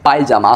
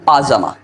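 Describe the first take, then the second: First: The first syllable has a 'pay' glide sound. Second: The first syllable is a plain 'pa' sound. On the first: The speaker calls it wrong. "যেটাকে আমরা বলে থাকি পায়জামা" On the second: The speaker calls it right. "আসলে সঠিক উচ্চারণ পাজামা"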